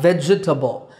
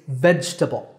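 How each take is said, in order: First: The word is said with four syllables. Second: The word is said with three syllables. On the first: The speaker calls it wrong. "It's not vegetable, and there's no table in it" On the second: The speaker calls it right. "It's veg-ta-ble"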